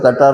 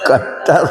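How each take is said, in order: First: The middle t sound is short, single. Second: The middle t sound is held long, doubled. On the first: This is how everyone usually says it. "बोलते सब कटर है" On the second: This follows the written spelling. "क्या pronunciation होगा इसका? उच्चारण क्या होगा?"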